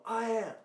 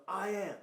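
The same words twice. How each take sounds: First: Louder, higher shouted echo; imitated crowd echo. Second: Loud, high call to a crowd; rallying call. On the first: Thousands of people repeating after the speaker, loud shouted echo. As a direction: answer back as a whole crowd would. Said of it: "and they go". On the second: Retold or imitated. Speaker leading thousands in an affirmation, loud rallying call. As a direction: call it out for them to repeat. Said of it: "And I go".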